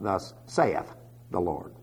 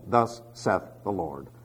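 First: Saith is said with a long 'ay' vowel. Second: Saith is said with a short vowel, like 'Seth'. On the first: The speaker calls it wrong. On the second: The speaker calls it right. "you say Seth"

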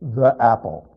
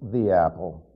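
First: The word 'the' sounds like 'thuh'. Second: The word 'the' sounds like 'thee'. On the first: The speaker calls it wrong. "Unless you're one of those that says" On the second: The speaker calls it right. "It's the apple"

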